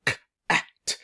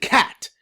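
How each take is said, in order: First: K-at with the k and at pulled apart, k unvoiced; sounds split apart. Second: Cat said as one smooth word; sounds blended. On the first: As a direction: break k-at into its two sounds, k then at. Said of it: "can they break it down". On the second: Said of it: "and then blend it". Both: Shown as a demonstration.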